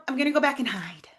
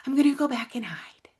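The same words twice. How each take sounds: First: Said in the usual way. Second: A hushed, voiceless whisper; whispered hiding. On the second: Retold or imitated. Repeating her avoidant thought to listeners, whispered. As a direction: breathe it like someone shrinking away to hide.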